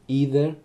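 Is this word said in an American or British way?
American. The word is said with an American pronunciation. "американский"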